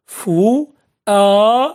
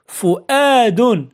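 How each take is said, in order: First: فؤاد very slow, each syllable long and separate. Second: Said in the usual way. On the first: Shown as a demonstration. Teacher sounding out an example for pupils, فؤاد syllable by syllable. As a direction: draw out فؤاد with pauses between syllables.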